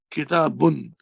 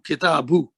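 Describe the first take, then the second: First: The word ends with a final n sound. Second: The word ends in a vowel, without n. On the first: The noun stands alone. "see the pronunciation Kitabun" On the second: The noun is the first part of a possessive phrase. "this noon goes away"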